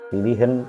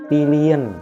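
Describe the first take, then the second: First: The h before the ending is clearly pronounced. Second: The h before the ending is faint. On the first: The speaker calls it wrong. "Jadi bukan" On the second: The speaker calls it right. "H samar semuanya"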